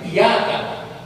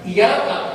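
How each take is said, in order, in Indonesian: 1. Bunyi y-nya ditahan dan dibaca ganda. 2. Bunyi y-nya pendek dan tunggal. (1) "iyyaka kan ada batas tasydidnya" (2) "Dibaca iyyaka kan ada i"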